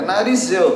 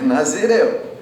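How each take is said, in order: First: The r sound comes before the z sound. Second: The z sound comes before the r sound. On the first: The speaker calls it wrong. "Não é narizeu" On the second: The speaker calls it right. "É Nazireu"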